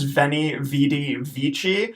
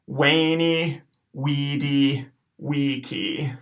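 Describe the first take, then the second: First: The words begin with a V sound. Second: The words begin with a W sound. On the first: The speaker calls it wrong. "You might have heard it pronounced in English as" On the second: The speaker calls it right. "all of our V's are going to have to be W sounds"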